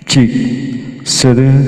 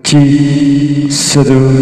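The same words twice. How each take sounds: The two takes are said the same way.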